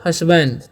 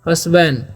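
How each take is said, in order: No difference in how they are said.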